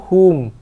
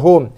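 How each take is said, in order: First: The vowel stays a pure u sound. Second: The vowel shifts away from a pure u. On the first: The speaker calls it right. "kena kekalkan bunyi bacaan tu" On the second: The speaker calls it wrong. "Bukannya hum"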